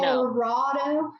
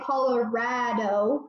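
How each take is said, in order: First: The 'ra' does not have the vowel of 'rad'. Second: The 'ra' has the vowel of 'rad'. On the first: The speaker calls it wrong. "we're not friends" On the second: The speaker calls it right. "like rad"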